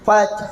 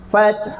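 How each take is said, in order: Both takes have the same delivery.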